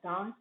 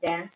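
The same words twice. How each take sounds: First: It is said with a British accent. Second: It is said with an American accent. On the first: "in British accent" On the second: "in American"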